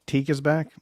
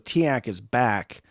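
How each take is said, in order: First: The name ends with a vowel rhyming with seek. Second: The name ends with a vowel rhyming with back. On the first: "if it's pronounced Teak" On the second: "Tiak rhymed with back"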